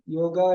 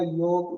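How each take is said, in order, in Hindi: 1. शब्द के अंत में एक स्वर जोड़ा गया है। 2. शब्द व्यंजन पर समाप्त होता है, उसमें कोई स्वर नहीं है। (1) "योगा को योगा नहीं बोलना चाहिए" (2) "योगा हमेशा योग होता है"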